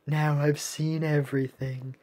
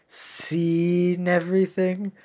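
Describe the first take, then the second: First: Said in the usual way. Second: Drawn-out "Seen", underlining the pun; stress on SEEN. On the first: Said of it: "Get it?". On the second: Acted. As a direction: stretch "Seen" slowly to flag the wordplay. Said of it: "I am master of puns".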